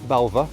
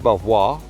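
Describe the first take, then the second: First: The name sounds like 'bel-va'. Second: The name sounds like 'bel-vwar', as spelled. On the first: "or Be- Belva" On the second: "It's not Belvoir"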